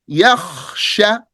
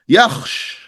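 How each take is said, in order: First: The word ends with a final vowel. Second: The word ends on a bare consonant. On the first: The final vowel is kept to help the listener. The speaker calls it wrong. "I just did you a favor by pronouncing the last haraka" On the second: The word is cut at the pause, as the rule requires. The speaker calls it right. "because that's what's correct"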